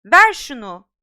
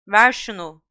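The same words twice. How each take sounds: First: Loud furious shout; Harry shouting at Malfoy. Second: Loud call at normal pitch; Harry calling to Malfoy mid-air. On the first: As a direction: demand it back at full voice. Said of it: "diye bağırdı Harry". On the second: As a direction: shout it across the air. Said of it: "diye seslendi Harry". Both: Acted.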